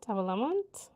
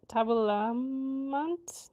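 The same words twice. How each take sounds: First: Said in the usual way. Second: "tabelamant" stretched very slowly, rising at the end; sounding it out. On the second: Shown as a demonstration. Learner testing how to say it, slow questioning "tabelamant". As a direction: draw out "tabelamant" syllable by syllable as a question. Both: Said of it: "how do I say this".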